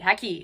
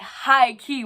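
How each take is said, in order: First: The words are slurred together loosely and quickly. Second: The words are pronounced fully and with feeling. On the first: The word is said out of habit. "It gets smushy and easy to say because I've said it so darn much" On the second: The speaker means it wholeheartedly. "when I say it with feeling, I pronounce it thoroughly but confidently"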